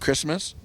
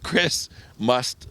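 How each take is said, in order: First: It is said as one word without a pause. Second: A short pause separates the two parts. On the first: It names the holiday. The speaker calls it wrong. "some people think it's like Christmas list, like Christmas" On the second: It names the channel. The speaker calls it right. "I put a pause in between each"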